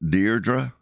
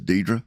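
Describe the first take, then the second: First: The first syllable has an R sound. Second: The first syllable has no R sound. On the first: "if you pronounce it cor- correctly, it's pronounced Deirdre" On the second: "She introduced herself to me as Deidre"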